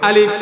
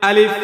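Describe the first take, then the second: The two takes are said the same way.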